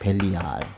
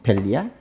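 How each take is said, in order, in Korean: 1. 이 단어는 가운데를 길게 늘여서 더 길게 발음해요. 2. 이 단어는 가운데를 늘이지 않고 짧게 발음해요. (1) "원래 발음은 사실 좀 더 길어서 벨리야알" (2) "벨리알이라고 이제 보통 읽는데"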